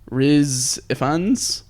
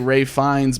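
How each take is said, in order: First: The first name sounds like 'Reese'. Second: The first name sounds like 'Ray'. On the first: The speaker calls it right. "like Riz Ifans, I think" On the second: The speaker calls it wrong. "I want to say Ray Fiennes, but it's not Ray Fiennes"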